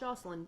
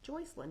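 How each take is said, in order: First: The first syllable sounds like 'Joss'. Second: The first syllable sounds like 'Joyce'. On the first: The speaker calls it wrong. "not Jocelyn" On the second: The speaker calls it right. "Joycelyn, not Jocelyn"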